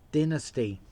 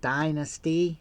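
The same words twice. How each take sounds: First: The word is said with an Australian pronunciation. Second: The word is said with an American pronunciation. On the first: "as we're in Australia, we're going to call it" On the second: "as the Americans say"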